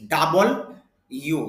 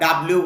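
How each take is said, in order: First: It is 'double' followed by a separate 'u'. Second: It starts with 'da' and ends in 'bliu'. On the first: The speaker calls it right. "শুদ্ধ উচ্চারণ হবে ডাবল ইউ" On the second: The speaker calls it wrong. "বা ডাব্লিউ বলেন, দুটোর কোনোটাই উচ্চারণ হবে না"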